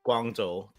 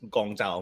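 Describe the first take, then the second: First: The name is pronounced the Mandarin way. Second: The name is pronounced the Cantonese way. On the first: "That's the Mandarin way of saying it" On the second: "You have the Cantonese pronunciation, which is Gongzhou"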